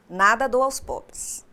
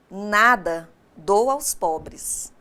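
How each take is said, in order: First: It runs on with no pause after 'nada'. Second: There is a clear pause after 'nada'. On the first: Nothing is given to the poor. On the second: The goods are given to the poor.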